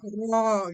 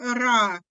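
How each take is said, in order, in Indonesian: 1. Vokalnya adalah 'o' yang bulat dan lebih gelap. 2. Vokalnya adalah 'a' yang jelas dan terbuka. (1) "nggak kayak ro gitu ya"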